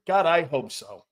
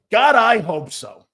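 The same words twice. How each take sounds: First: Said in the usual way. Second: "God, I hope so" said louder and slower, leaning on God; emphatic repeat. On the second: Real, not acted. Host answering about Goddard, emphatic and slow. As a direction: push it out with longing.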